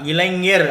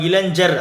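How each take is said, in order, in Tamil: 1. நடுவில் உள்ள மெய் அண்ணம் சார்ந்த 'ny' ஒலி. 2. நடுவில் உள்ள மெய் 'j' ஒலி. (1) "இது வந்து ஞா" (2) "இது ஜா கிடையாதுங்க"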